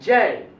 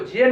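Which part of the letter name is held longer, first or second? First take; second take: first; second. First: The opening ja part is held long. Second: The final ee part is held long. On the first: The speaker calls it right. "जौ के पास ही थोड़ा हमको रुकना है और ई के पास नहीं रुकना है" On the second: The speaker calls it wrong. "इसको जे नहीं पढ़ा जाता है"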